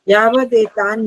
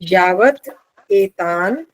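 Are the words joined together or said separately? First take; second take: joined; separate. First: The two words are joined, with a 'd' sound. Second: The two words are separate, with a 't' sound. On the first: "अभी पूरा संधि साथ बोल रही हूँ" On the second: "तोड़ के बोलें संधि छेद के साथ"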